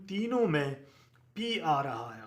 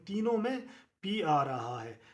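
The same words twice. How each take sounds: The two takes are said the same way.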